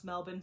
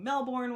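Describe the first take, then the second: First: Melbourne said as MEL-bun; Australian pronunciation. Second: Melbourne said as MEL-born; pronounced as spelled. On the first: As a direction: reduce the end of Melbourne to an unstressed "bun", no r. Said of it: "it's pronounced Melbourne". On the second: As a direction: give Melbourne a full "born" ending with the r. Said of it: "you may be saying Melbourne". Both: Shown as a demonstration.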